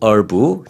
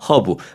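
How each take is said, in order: First: It is said with an American-style pronunciation. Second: It is said with a Korean-style pronunciation. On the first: "미국식으로는 얼브" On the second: "한국식으로는 허브"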